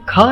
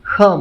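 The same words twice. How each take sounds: First: The consonant is a plain aspirated k sound. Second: The consonant is a rough sound deep in the throat. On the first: The speaker calls it wrong. "इसको ख नहीं बोला जाता" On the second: The speaker calls it right. "ख बोला जाता है"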